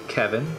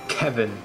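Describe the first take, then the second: First: The name is said plainly, without extra force. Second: The name is said with a heavy, punchy first syllable. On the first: "it's not just Kevin" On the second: "with so much attitude. Like emph- emphasis emphasis at the start"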